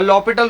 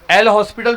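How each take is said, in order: First: The s sound in the name is silent. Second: The s sound in the name is pronounced. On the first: "ये वो silent violent होते हैं ना" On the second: "एल हॉस्पिटल भी बोलते हैं"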